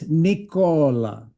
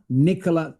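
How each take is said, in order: First: The name is said the Italian way. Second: The name is said the English way. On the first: The speaker calls it right. "it's Nicola" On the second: The speaker calls it wrong. "That's incorrect. Nikola is the name of a female English person"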